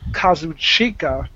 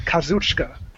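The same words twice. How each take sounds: First: The i vowel after ch is fully voiced. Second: The i vowel after ch is dropped. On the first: "English commentators, when they see it, they say" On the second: "if you hear it pronounced by a Japanese person, they say"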